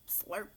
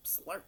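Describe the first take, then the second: No difference in how they are said.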